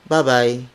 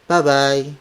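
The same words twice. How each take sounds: Both takes have the same delivery.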